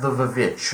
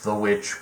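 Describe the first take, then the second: First: The word begins with an extra 'viv' sound. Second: The word begins with a plain 'w' sound. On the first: It follows the title's spelling. "I'm calling it the Vivitch because that's how it's spelled" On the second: It is the official pronunciation. "technically pronounced The Witch"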